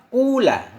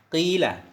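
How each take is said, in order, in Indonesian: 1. Vokal pertama adalah u panjang yang murni. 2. Vokal pertama adalah i panjang yang murni. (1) "Kalau mendammahkan fa berarti jadilah innya waw yang sukun" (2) "Kalau dikasrahkan fa berarti innya dari waw menjadi ya"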